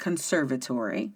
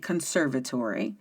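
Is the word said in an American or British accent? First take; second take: American; American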